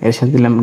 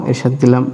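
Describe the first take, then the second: No difference in how they are said.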